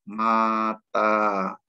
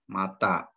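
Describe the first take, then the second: First: The vowels are said long. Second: The vowels are said short. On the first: "Contoh pembacaan yang panjang" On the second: "Ini bacanya pendek saja"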